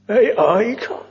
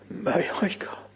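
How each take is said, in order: First: May lifted and pressed, rising at the end; stressed plea. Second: A whispered plea, I leaning in; hushed whisper. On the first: Preacher shows the emphasis in the plea to the Lord, stressed. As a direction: lean hard on May, ask it rising. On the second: Preacher whispers the plea to the Lord, hushed. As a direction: whisper it, stress on I. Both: Shown as a demonstration. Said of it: "Lay the emphasis there".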